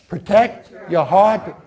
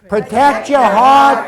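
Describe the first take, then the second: First: It is said flatly, with little energy. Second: It is said with enthusiasm and feeling.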